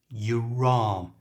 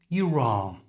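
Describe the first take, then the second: First: It is said slowly, sound by sound. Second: It is said at a normal speaking speed.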